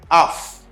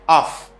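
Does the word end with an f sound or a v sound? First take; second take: f; f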